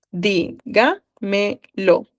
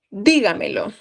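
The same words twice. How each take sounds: First: "Dígamelo" stretched very slowly, each syllable separated. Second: Said in the usual way. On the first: Shown as a demonstration. Teacher to class, spelling out the stress, very slow. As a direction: draw out "Dígamelo" so students hear every syllable.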